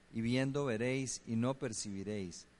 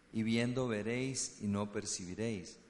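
Both takes have the same delivery.

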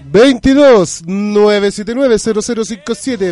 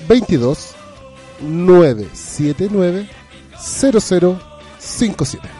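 First: The number is read at a quick pace. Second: The number is read at a slower pace.

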